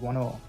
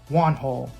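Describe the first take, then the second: First: The H sound is dropped entirely. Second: The H sound is clearly pronounced.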